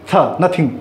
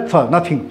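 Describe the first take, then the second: No difference in how they are said.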